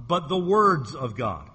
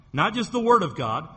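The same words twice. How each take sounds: First: "words" hit firmly, the final s clear, slowed and falling; stress on plural words. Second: "Word" stressed as one single word, rising at the end; stress on singular word. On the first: Preacher stressing the plural "words" against the singular. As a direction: land hard on "words" with a clear s. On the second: Preacher stressing the singular "Word" to his congregation. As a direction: lean on "Word" to set it against the plural. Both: Shown as a demonstration.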